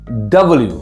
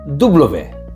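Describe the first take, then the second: First: The letter is named the English way. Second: The letter is named the French way. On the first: "En anglais, on dit W" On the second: "mais en français, W"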